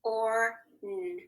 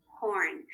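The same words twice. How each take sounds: First: "Or, mm," as separate tapped sounds, held apart; segmented phonics demo, "Or" then a held "mm"; sounded out. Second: Said in the usual way. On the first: Shown as a demonstration. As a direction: sound out horn piece by piece, with gaps. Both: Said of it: "one tap".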